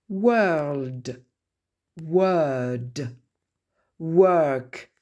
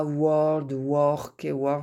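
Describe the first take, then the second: First: "World", "Word", "Work" with a long "er" vowel; long central vowel. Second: "world" and "work" said with an "or" vowel; mistaken "or" vowel. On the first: Teacher modelling for French learners, "World", "Word", "Work" with long "er". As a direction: draw out an open-mid "er" in "World", "Word", "Work". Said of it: "Et non pas world". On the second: Teacher imitating learners' mistake, "world", "work" with "or" vowel. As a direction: say "world", "work" like French-accented "wor-ld", "wor-k". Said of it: "c'est pas ça". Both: Shown as a demonstration.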